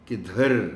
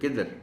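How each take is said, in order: First: The dh sound is heavy and stressed. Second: The dh sound is weak, without stress. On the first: The speaker calls it right. "ये देखें, ये आवाज़ पैदा हो रही है" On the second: The speaker calls it wrong. "अगर आप इसको किधर बोलते हैं, ... तो भारी आवाज़ तो नहीं पैदा हो रही"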